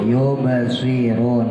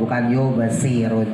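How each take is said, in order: First: The s is heavy, with rounded lips. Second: The s is a plain light s. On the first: The speaker calls it right. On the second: The speaker calls it wrong.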